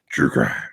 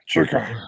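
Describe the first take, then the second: First: It is said in a gravelly Batman voice. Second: It is said in a normal voice.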